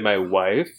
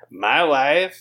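First: Said in the speaker's ordinary natural voice. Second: Said in an exaggerated put-on foreign accent.

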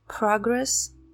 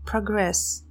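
First: The stress is on the first syllable. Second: The stress is on the second syllable. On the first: It is used as a noun. "прогресс" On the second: It is used as a verb. "прогрессировать"

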